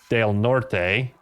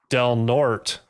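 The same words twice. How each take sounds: First: The name is said with a Spanish pronunciation. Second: The name is said with an English pronunciation. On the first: The speaker calls it right. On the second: The speaker calls it wrong.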